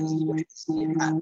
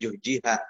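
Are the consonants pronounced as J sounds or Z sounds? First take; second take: Z sounds; J sounds. First: The consonants are pronounced as Z sounds. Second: The consonants are pronounced as J sounds.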